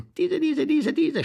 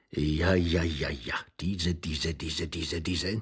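First: High-pitched insistent squeal; high, excited rapid repeating; high agitated repetition. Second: Low-pitched, rapid repeating; low, rhythmic chant of one word; low muttered repetition. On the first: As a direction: leap up high on each repeated word. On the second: Character repeats word, mounting agitation. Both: Acted.

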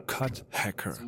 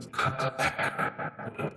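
First: Said in the usual way. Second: "Cut Hacker" slowed, whispered and electronically distorted; cut hacker effect. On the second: Shown as a demonstration. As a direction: let the machine chop "Cut Hacker" into a whisper. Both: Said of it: "So heißen diese Effekte".

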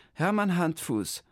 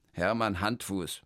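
First: High, chirpy clerk repeating the name; clerk echoing. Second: Said in the usual way. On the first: Acted. The clerk repeats Hermann's name back, high and chirpy. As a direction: echo "Hermann Handfuß" high and bright as the clerk.

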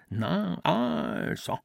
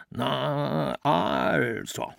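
First: Much higher, stretched A and clipped O; mimicking father. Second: A lightly voiced stern father, drawn-out A; father's voice. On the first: Ambros keeps mocking his father's voice, high and exaggerated. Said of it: "Es gelang ihm so gut und täuschend". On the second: A son reading the letter in his father's voice, mildly stern. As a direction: read it like his father would, stretching the A. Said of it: "las mit der Stimme seines Vaters". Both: A narrator's reading.

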